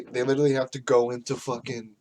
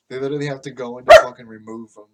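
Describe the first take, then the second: First: Said in the usual way. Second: Much louder and fast, the rant boiling over; loud, rushed exasperation; exasperated outburst. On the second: Real, not acted. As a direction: blurt it out in frustration. Restarts the rant, louder second time.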